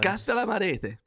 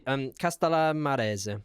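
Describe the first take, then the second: First: Castellamarese higher and louder, said with flourish; confident pronunciation. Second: Castellamarese said slowly, syllable by syllable; careful pronunciation. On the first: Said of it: "No, I don't know". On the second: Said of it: "Castellammare-, Marese". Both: Shown as a demonstration.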